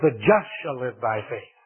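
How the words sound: The word "just" carries the main stress. The focus is on who the righteous are. "he had put the emphasis on the just"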